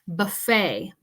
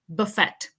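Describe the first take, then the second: First: The word ends without a T sound. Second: The word ends with a clear T sound. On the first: The speaker calls it right. "The T is silent" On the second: The speaker calls it wrong. "We don't say buffet. That sounds kind of strange"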